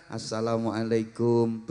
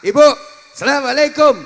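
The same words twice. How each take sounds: First: Much lower, softer, slow respectful salam; bow and greet the teacher humbly; humble student bow. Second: Loud, high, bold greeting. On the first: Student bowing to a teacher, Indonesian style, soft and humble. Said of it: "sambil membungkukkan badan". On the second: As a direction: hail the headmistress boldly. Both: Shown as a demonstration.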